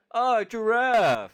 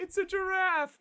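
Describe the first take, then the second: First: Much higher, louder, slow dopey cry; dumb Patrick. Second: Much higher, slow dopey cry; proudly and wrongly announce it; dumb Patrick. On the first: Host imitating Patrick naming the elephant wrong, dopey shout. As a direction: bellow it like a delighted dope. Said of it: "Patrick goes". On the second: Co-host echoing Patrick's wrong guess, dopey high cry. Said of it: "stupid Patrick goes". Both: Retold or imitated.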